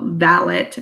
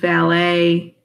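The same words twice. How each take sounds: First: It is said in the characters' period pronunciation. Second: It is said in an everyday modern pronunciation.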